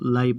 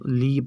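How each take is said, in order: First: The vowel is an 'ai' diphthong sound. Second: The vowel is a long 'ee' sound. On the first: "नहीं हम इसको लाई पढ़ेंगे" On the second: "नहीं हम इसको ली पढ़ेंगे"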